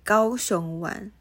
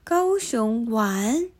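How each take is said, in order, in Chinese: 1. 音高保持平稳，没有上升。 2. 音高提高了，并且在句尾上升。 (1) "重复句尾" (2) "提高音调"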